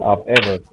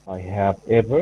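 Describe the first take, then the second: First: 'I have' is contracted into one quick syllable. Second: 'I have' is said as two full words. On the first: "could just say I've ever" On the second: "instead of saying I have"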